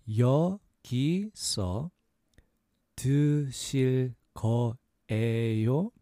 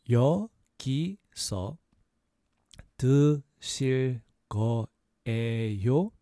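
The two takes are said the same way.

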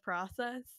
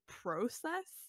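First: It is said with the speaker's usual pronunciation. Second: It is said with a Canadian-style pronunciation. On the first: This is how the speaker normally says it. The speaker calls it right. "instead of process" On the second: The speaker picked this up from Canadians. The speaker calls it wrong. "I've been spending way too much time with Canadians because I just had to fight my brain to not say process"

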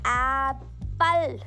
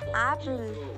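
First: The word is said forcefully with a wide mouth. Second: The word is said softly with a narrow mouth. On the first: The speaker calls it wrong. "there is lot of gap between your lips and you put lot of stress on this word" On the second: The speaker calls it right. "giving not too much difference between my lips, I will just say apple. It is as soft"

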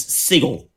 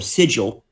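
First: The g is said as a hard g sound. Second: The g is said as a soft j sound. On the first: "The American pronunciation is sigil" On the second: "The British pronunciation is S-I-J-L, or sigil"

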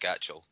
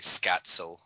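First: The middle consonant is a 'ch' sound. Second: The middle consonant is a 'ts' sound. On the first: This is the common but incorrect form. The speaker calls it wrong. "Scatchell isn't pronounced Scatchell" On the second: This is the actual form of the name. The speaker calls it right. "It's actually Scatzel"

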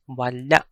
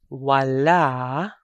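First: The final vowel is cut off by a glottal catch. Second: The final vowel ends smoothly without a catch. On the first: It means nothing or not. "wala for nothing or not" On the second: It means the left side. "wala for the left side"

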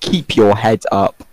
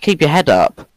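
First: It is said with crisp, careful enunciation. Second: It is said loosely, without careful enunciation.

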